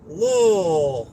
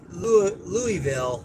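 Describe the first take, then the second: First: The name is squeezed into short slurred syllables. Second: Every letter of the name is clearly pronounced. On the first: This is how locals out here say it. "you don't enunciate at all, and you just say Lowell" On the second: This is how people from Oregon say it. "we know how to pronounce things and enunciate all the letters"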